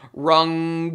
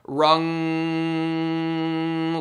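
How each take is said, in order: First: The final ng sound is cut short. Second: The final ng sound is held out nasally. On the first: The speaker calls it wrong. "rather than rung" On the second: The speaker calls it right. "I actually want rung like that, feeling that very nasal"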